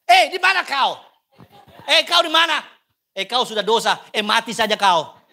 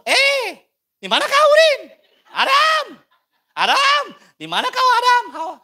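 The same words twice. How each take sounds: First: Put-on loud, blunt Batak-accent calling; mock Batak accent, higher and louder. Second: Put-on high, loud Ambon-accent yelling; mock Ambon accent, very high and loud. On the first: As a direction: bark it like a stern Batak elder. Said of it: "Karena orang Batak". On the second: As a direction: holler for Adam in an Ambonese accent. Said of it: "Atau orang Ambon".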